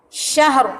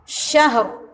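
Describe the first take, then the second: The two takes are said the same way.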